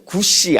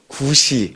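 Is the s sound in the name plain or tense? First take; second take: tense; plain. First: The s sound is tense, like the surname. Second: The s sound is plain and relaxed. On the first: It names a person with the family name Gu. The speaker calls it wrong. "구씨 아니고요. 성이 구씨 아니고요" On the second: It names the biblical figure Cush. The speaker calls it right. "네, 구씨"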